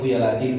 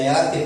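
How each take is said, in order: First: The name ends with an added u vowel. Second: The name ends on the consonant f. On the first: The speaker calls it right. "tapi ya latifu" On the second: The speaker calls it wrong. "jangan ya latif"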